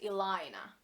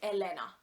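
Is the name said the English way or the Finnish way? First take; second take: English; Finnish. First: The name is said with English-style pronunciation. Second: The name is said with Finnish-style pronunciation. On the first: The speaker calls it wrong. "I am not Elena" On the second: The speaker calls it right. "If you pronounce it like a real Finnish person"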